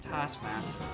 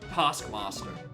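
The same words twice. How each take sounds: First: It is said in a plain, everyday accent. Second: It is said in a put-on, different accent. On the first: The speaker calls it wrong. "I don't like saying it Taskmaster" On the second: The speaker calls it right. "unless you're using a different accent"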